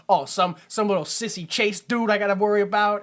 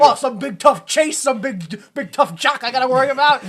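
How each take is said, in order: First: A light mocking sneer at a sissy Chase. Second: Louder, higher hammed-up tough-guy cop voice, laughing through it; Robert De Niro. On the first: A hint of a cop sneering at a sissy partner. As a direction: lightly scoff at a little sissy guy. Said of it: "if this is any other, like, cop movie". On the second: Imitating the cop griping about his tough partner, hammed up and laughing. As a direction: ham up a tough cop sneering at a big tough jock. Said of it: "Flawless Robert De Niro I'm doing right now".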